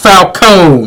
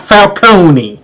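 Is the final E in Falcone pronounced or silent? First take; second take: silent; pronounced. First: The final E is silent. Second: The final E is pronounced. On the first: The speaker calls it right. "it's pronounced Falcone ... The E is silent" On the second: The speaker calls it wrong. "not Falcone"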